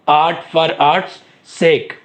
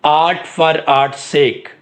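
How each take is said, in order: First: Very slow and word by word, with a pause before the last word; slow dictation. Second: Very slow, word by word, for note-taking; slow dictation. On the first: Teacher repeating the slogan for students to note, very slow. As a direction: drag it out, then land the last word after a beat. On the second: Teacher dictating the slogan to the class, very slow. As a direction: spell it out slowly so students can write it down. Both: Shown as a demonstration.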